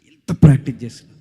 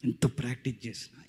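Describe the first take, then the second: First: practice punched out loud; emphatic repeat. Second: Said in the usual way. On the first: Shown as a demonstration. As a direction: hit practice hard and loud. (Practice అనే మాటను గట్టిగా నొక్కి చెప్పడం)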